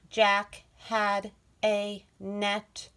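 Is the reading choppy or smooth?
choppy. Each word is read separately with breaks. The speaker calls it wrong. "We don't want to read like"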